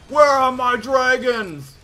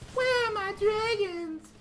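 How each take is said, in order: First: It is said in the speaker's own normal voice. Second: It is said in a put-on female character voice.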